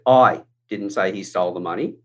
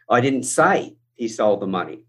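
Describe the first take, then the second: First: The word 'I' is stressed. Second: The word 'say' is stressed. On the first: Someone else said it. "it's talking about me. I wasn't the one who said it. Somebody else did" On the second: It was implied or written, not said. "I could have inferred it. I could have written it"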